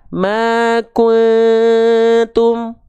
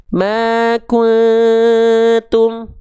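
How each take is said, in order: First: The nasal hum is held for a long moment. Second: The same.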